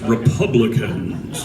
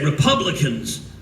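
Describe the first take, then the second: First: It is said in a deep, ominous voice. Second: It is said in a normal voice.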